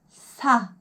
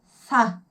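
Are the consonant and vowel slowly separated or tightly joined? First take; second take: joined; joined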